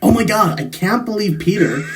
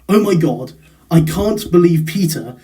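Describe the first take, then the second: First: It is said in an American accent. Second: It is said in a non-American accent. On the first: "the American version" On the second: "if I were to do it, it would sound like"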